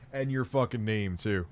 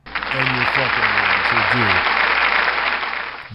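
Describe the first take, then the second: First: Said in the usual way. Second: Shouting the name line out loud; louder shout. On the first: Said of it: "repeat louder". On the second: Real, not acted. Streamer yelling at chat about a username, loud. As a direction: bellow it at chat, mock outraged.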